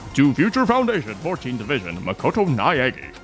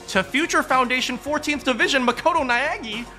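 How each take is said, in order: First: It is read in a put-on generic man's voice. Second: It is read in the speaker's normal voice.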